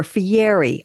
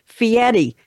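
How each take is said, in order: First: Fieri said "fee-AIR-ee", with a clear R. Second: Fieri said "fee-ETT-ee", R as a tapped T; Italian-style Fieri, R heard as a T. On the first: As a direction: say Fieri as spelled, R kept. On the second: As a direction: say Fieri with the R turned into a T. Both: Shown as a demonstration. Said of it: "pronounced as though the R is a T".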